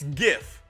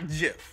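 First: The word begins with a hard g sound. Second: The word begins with a j sound. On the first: The speaker calls it right. "It's GIF" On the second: The speaker calls it wrong. "it's not JIF. JIF is a peanut butter"

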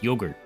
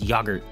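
First: It is said with the American pronunciation. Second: It is said with the British pronunciation. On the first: "Here we have no H, so it's yogurt" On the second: "it definitely is yogurt over there"

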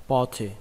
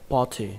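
No difference in how they are said.

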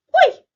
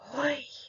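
First: It is said in a joyful tone. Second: It is said in a delighted, admiring tone. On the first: The speaker is happy. "Радісно тепер" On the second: Something delightful happened. "можемо вимовити ці вигуки захоплено"

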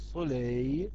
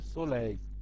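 First: The vowel in the ending is drawn out long. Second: The vowel in the ending is kept short. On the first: The speaker calls it wrong. "Allonge le A au lieu de" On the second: The speaker calls it right. "au lieu de soleil"

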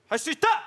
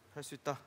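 First: Every syllable is said clearly to the end. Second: The end of the phrase fades away.

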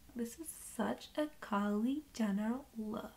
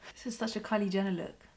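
First: The line is said in an imitated voice. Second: The line is said in an ordinary voice.

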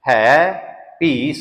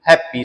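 First: The two words are kept apart as two words. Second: The two words run together into one word. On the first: The speaker calls it right. "ਇਹ ਸ਼ਬਦ ਅਲੱਗ-ਅਲੱਗ ਕਰਕੇ ਬੋਲਣਾ" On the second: The speaker calls it wrong. "ਬਹੁਤ ਵੱਡੀ ਗਲਤੀ ... ਹੈਪੀ ਲਫ਼ਜ਼ ਬਣਾ ਦਿੰਦੇ ਆ"

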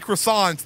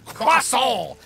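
First: The word is said with a plain English pronunciation. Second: The word is said with an exaggerated French pronunciation.

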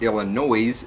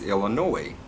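First: The final S sound is pronounced. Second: The final S sound is silent. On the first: The speaker calls it wrong. "Illinois is not Illinois" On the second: The speaker calls it right. "it's Illinois ... the silent S on the end"

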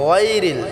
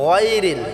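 The two takes are said the same way.

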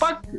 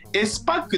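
First: The S is blended into one word, supakku. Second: The S is read as a letter, esu-pakku. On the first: "スパックっていうのが一般的な言い方かなと思います" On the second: "S パックって言うんですけど、うん、合ってますか、読み方"

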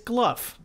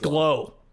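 First: The name ends with an f sound, like tough. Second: The name ends in a vowel with no f. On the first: The speaker says it this way. "tough, rough, Gluff. I say it like that" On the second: Other people say it this way. "people are like, it's Glow"

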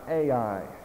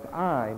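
First: The name is said as two vowel sounds. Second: The name is said as one vowel sound. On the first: The speaker calls it wrong. "not Ai, I guess, as most people call it" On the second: The speaker calls it right. "It's pronounced I"

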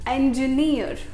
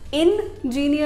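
First: The stress is on the last syllable. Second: The stress is not on the last syllable. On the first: The speaker calls it right. "Stress थोड़ा last में, near" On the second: The speaker calls it wrong. "Engineer नहीं बोलना है"

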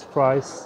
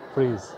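First: The word sounds like English 'fries'. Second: The word sounds like English 'freeze'. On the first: The speaker calls it wrong. "I always say it's fries" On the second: The speaker calls it right. "it's pronounced like freeze"

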